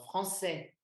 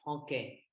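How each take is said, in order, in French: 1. La consonne du milieu est un son s. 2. La consonne du milieu est un son k. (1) "comme dans français aussi, il y a un C C D" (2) "Sinon, ça se prononcerait franquet"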